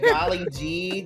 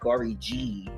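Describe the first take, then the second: First: The word is said with clear L sounds. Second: The L sounds are replaced by R sounds.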